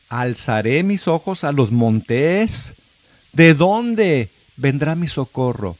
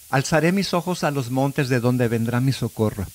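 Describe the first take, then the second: First: The last part sounds like a question. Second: The last part sounds like a statement.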